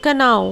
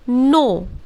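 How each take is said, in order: First: The word begins with a spoken k sound. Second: The word begins with an n sound. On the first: The speaker calls it wrong. "कनाओ is totally wrong" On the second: The speaker calls it right. "तो उसके बाद है नो"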